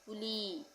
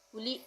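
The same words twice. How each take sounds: First: The final vowel is long and stretched. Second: The final vowel is short and clipped. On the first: The speaker calls it right. "खींच के कुली" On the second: The speaker calls it wrong. "कुली नहीं"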